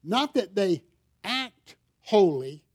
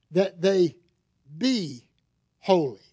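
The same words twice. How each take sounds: First: "act holy" drawn out slowly, a touch mocking; slow down and lean on "act" in "act holy"; contrast on act. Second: Pause, then hit "be" in "that they be holy"; stress on be. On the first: Preacher contrasting fake holiness for his congregation, mock-slow "act". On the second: Preacher telling believers what really counts, stressing "be". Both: Shown as a demonstration. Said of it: "there's a difference in those two things".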